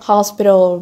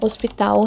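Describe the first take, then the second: First: It is pronounced with English sounds. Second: It is pronounced with Portuguese sounds.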